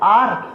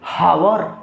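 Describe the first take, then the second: First: The word starts directly with a vowel sound. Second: The word starts with a breathy h sound. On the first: The speaker calls it right. "नहीं, इसको पढ़ते हैं आर" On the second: The speaker calls it wrong. "अब पढ़ने वाला क्या पढ़ेंगे?"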